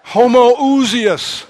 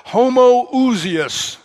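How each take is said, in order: First: Homoousios stretched very slowly, higher and louder; slowly drawn out, louder. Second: Homoousios stretched very slowly, pitched high; slowly drawn out. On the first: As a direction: proclaim Homoousios, long and full. Preacher repeats the Greek term. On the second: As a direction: savour every syllable of Homoousios. Preacher stresses the Greek term. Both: Shown as a demonstration.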